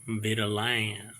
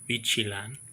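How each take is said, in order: First: The second syllable begins with a t sound. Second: The second syllable begins with a ch sound. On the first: "American pronunciation of Vitilan" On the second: "if it were in Japanese, uh, there is no T I. So that would be Chi"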